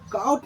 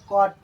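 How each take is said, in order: First: The vowel sounds like 'ow' in 'cow'. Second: The vowel sounds like 'aw' in 'saw'. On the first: The speaker calls it wrong. "इसको काउट नहीं पढ़ना है" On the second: The speaker calls it right. "इसको कॉट पढ़ना है"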